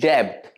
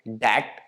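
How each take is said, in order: First: The b sound is pronounced in the word. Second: The b sound is silent in the word. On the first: The speaker calls it wrong. "इसे ज्यादातर लोग pronounce करते हैं डेब्ट" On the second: The speaker calls it right. "बी is silent"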